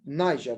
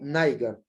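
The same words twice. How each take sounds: First: It is said without rhyming with tiger. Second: It is said to rhyme with tiger. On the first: This is the usual pronunciation. "we should say it Niger" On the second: It is changed to fit the rhyme. "modify the articulation of the word to be Niger, to be like tiger"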